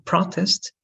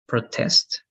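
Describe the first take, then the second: First: "protest" with a stressed PRO, noun form; stress on first syllable. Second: "protest" with a stressed TEST, verb form; stress on second syllable. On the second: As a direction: push the weight onto TEST in "protest". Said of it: "a verb". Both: Shown as a demonstration.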